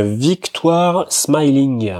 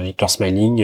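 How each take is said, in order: First: "Victoire Smiling" said slowly, with "Smiling" in a showy English accent as /smailiŋ/. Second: Said in the usual way. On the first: Shown as a demonstration. Racing tipster showing off his English accent on the horse's name, slow and proud. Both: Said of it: "T'as vu, l'accent anglais, il est top".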